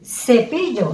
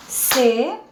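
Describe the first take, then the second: First: Said in the usual way. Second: "Cepillo" in three spaced beats, ce... pi... llo; separated syllables. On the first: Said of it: "que me representa". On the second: Shown as a demonstration. Teacher pronounces it first for counting, separated syllables. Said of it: "Entonces, separémoslo".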